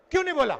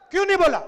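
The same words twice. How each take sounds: First: Said in the usual way. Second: क्यों नहीं बोला said louder, stress on नहीं; louder repeat. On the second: Acted. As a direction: hammer the repeat at the crowd, hitting नहीं. Rhetorical question repeated to crowd. (नहीं पर ज़ोर देकर ऊँची आवाज़ में दोहराया सवाल)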